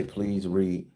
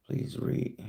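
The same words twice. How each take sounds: First: Said in the usual way. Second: Breathy whispered repeat; host whispering a viewer's chat request while reading. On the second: Retold or imitated. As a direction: whisper the request back to yourself.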